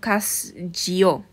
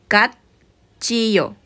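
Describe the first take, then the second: First: The first syllable ends in an s sound. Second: The first syllable ends in a t sound. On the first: The speaker calls it wrong. "no se ha pronunciado cas-chillo, no" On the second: The speaker calls it right. "Su pronunciación va a ser cat-chillo"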